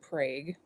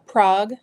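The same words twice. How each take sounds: First: It is said the local American way. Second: It is said the usual European-city way. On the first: This is how the town's residents say it. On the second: This is how the European city is said.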